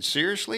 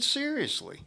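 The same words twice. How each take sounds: First: "Seriously" high with a rising end; "Seriously" lifted into a high question; disbelieving question. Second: "Seriously" high, falling at the end; "Seriously" held high, then dropped to close; assuring answer. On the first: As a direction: ask "Seriously" as if checking, pitched up. Acted question in retold exchange. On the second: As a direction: answer "Seriously" as a firm confirmation, pitched up. Acted answer to that question. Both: Retold or imitated.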